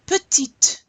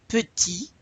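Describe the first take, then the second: First: Petite with the final T hit hard, higher and louder; final T stressed. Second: Petit ending on the vowel, the T left silent. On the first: Teacher pushing the class to hear the final T in Petite. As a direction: punch the T at the end of Petite. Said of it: "I really want to hear you pronounce that final T". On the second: Teacher showing the class the silent T in Petit. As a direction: stop Petit before the T. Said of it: "we don't pronounce the T there". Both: Shown as a demonstration.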